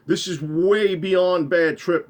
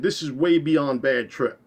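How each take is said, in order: First: Emphatic insistence. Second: Said in the usual way. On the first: Retold or imitated. Scared narrator insists to friend.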